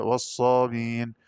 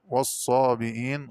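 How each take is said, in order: First: والصابين with no glottal stop before the long ee; dropped hamza. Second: Said in the usual way. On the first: Shown as a demonstration. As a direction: say والصابين as "was-saabiin". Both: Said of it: "قرأ بحذف الهمزة".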